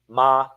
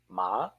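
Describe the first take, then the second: First: The pitch stays level with no tone. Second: The pitch curls like a question mark. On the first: It means ghost. "Even with no tone to fetter, it lives" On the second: It means tomb or grave. "curl it like a question mark"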